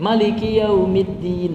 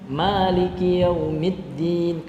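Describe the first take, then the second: First: The first vowel is kept short. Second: The first vowel is held long. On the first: "Itu dibaca mimnya pendek" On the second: "itu kita baca panjang"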